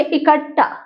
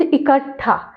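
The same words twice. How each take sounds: First: इकट्ठा with doubled plain ट, as ikaṭṭa; इकट्ठा ending in unaspirated टा; wrong form. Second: इकट्ठा with aspirated ठा, as ikaṭṭha; इकट्ठा landing on ठा; correct form. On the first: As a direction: say इकट्ठा without the puff. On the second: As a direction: puff the last syllable of इकट्ठा. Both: Shown as a demonstration. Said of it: "लेकिन यहाँ शुद्ध".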